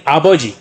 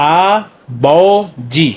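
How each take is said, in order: First: Said in the usual way. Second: "आ बो जी" very slow, three held syllables. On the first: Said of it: "यानी". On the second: Shown as a demonstration. Teacher joining three syllables, "आ बो जी" slowly separated. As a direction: sound out "आ", "बो", "जी" with gaps. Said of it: "तो क्या बन गया".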